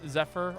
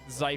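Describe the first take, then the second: First: The first syllable does not rhyme with 'life'. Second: The first syllable rhymes with 'life'. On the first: The speaker calls it wrong. "have I been mispronouncing your name this whole time" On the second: The speaker calls it right. "I'm gonna try and get this right"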